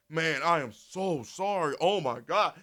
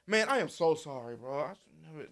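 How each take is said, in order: First: Slow, overdone mock apology, louder at the end; mock sorry apology. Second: Said in the usual way. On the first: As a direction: ham up a fake heartfelt sorry. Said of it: "they not finna respond with". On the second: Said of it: "I just said".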